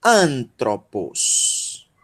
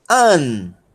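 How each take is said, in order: First: Antropos slowly joined, falling away after "An"; drawn-out Antropos with a long final s; whole-word demo. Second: Antropos broken into An, tro, pos with long pauses; widely separated syllables in Antropos; syllable-by-syllable demo. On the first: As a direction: model Antropos as one slow word. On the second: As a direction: sound out Antropos one syllable at a time. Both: Shown as a demonstration. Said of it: "é a pronúncia dessa palavra".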